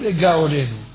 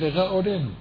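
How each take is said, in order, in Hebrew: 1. צליל הג הוא ג קשה ועצורה. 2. צליל הג רך, כמו ר גרונית. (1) "לא לגא עולנו. לגא עולנו זה כשזה בתחילת הטבעה" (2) "וזה לרא עולנו"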